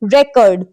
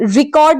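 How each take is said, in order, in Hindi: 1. पहला अक्षर 'ray' जैसा सुनाई देता है। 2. पहला अक्षर 'ree' जैसा सुनाई देता है। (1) "इसको रेकर्ड पढ़ते हैं" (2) "रिकॉर्ड नहीं पढ़ते"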